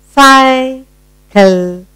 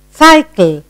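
First: "Cycle" in two drawn-out high halves; split into syllables. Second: Said in the usual way. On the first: Shown as a demonstration. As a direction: sound out "Cycle" with a pause mid-word. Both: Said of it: "Two syllable word".

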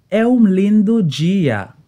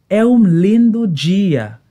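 No difference in how they are said.

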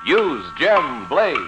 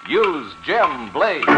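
Both takes have the same delivery.

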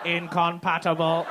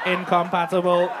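First: Slow, flat robot voice; robot voice, one word at a time. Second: Robot voice. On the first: Real, not acted. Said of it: "Why did you say that like a robot?". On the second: Retold or imitated. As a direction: echo it back like a robot. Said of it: "say that like a robot".

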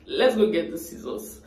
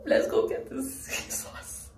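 First: Said in the usual way. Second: High, slow, breathy laughing whisper. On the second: Real, not acted. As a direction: giggle it out under your breath. Laughs at her own decision.

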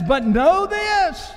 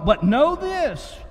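First: High, slow and drawn out, every word weighted; slow emphatic scripture. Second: Slow, weighted reading of know this; first emphatic read. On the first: Preacher to congregation, reading scripture slow and emphatic. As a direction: lean hard on know this as a warning. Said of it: "Scripture says". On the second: Preacher to congregation, first slow reading of the verse. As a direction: let the words land heavily. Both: Acted.

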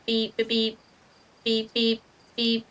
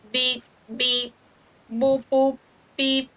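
First: Steady flat beeps; even morse beeps. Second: Sing-song beeping noises; mock beeping. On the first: Pretend. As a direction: tap out the beeps like morse code. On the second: Shown as a demonstration. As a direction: beep it out like a little machine. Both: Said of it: "Start making beeping sounds".

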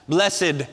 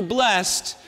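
First: Blessed stretched to bless-ed, two syllables; churchy two-syllable blessed. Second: Said in the usual way. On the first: Shown as a demonstration. Preacher mocking churchy talk, saying bless-ed in two syllables. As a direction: add the extra syllable, bless-ed. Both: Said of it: "we even add the extra syllable".

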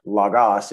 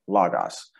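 First: Logos with the weight on "gos"; wrong stress on last syllable. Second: Logos with "lo" stressed and "gos" dropping; stress on first syllable. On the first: Teacher repeating the wrong stress of logos, last syllable stressed. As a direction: push the second syllable of "logos". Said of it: "it's logos". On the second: Teacher repeating the correct logos, first syllable stressed. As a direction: put the weight on the start of "logos". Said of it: "again, not logos". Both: Shown as a demonstration.

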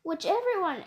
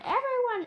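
First: Said in the usual way. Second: Everyone said much higher; rising pitch. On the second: Shown as a demonstration. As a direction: push everyone up high. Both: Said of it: "repeated word".

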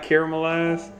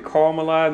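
First: Caramelize as "CARE-uh-muh-lize"; rejected pronunciation. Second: Caramelize as "CAR-muh-lize"; deliberate pronunciation. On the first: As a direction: start caramelize with "care", not "car". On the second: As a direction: open "car" at the start of caramelize. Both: Shown as a demonstration. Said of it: "not caramelize".

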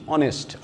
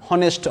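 First: "honest" said as "onest" with no h; teacher modelling "honest" with silent h. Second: "honest" with a voiced h sound; teacher showing the wrong h-sound in "honest"; h pronounced. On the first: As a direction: drop the h in "honest". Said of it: "honest আমরা বলছি না". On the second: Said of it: "বলছি honest". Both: Shown as a demonstration.

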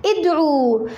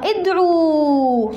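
First: ادعو ending clipped to a short damma; imperative form. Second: ادعو with a long final waw, slowly held; original form, drawn out. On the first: Teacher showing the imperative form, short final vowel. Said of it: "هكذا". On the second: Teacher showing the root form, slow stretched ending. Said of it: "ما أصلها؟". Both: Shown as a demonstration.

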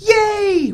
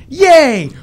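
First: Put-on squeaky, much higher kid cheer; child's high cheer, mock-voiced; excited kid. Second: Much higher, louder yay; high, loud childish yay; loud kid cheer. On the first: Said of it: "he was all like". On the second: Pretend. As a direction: yell it like a thrilled little boy.

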